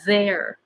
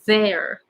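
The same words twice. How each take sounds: First: It begins with th, air flowing continuously. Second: It begins with th, air flowing continuously.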